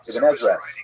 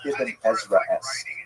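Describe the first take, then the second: First: It is said quickly. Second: It is said at a normal speed.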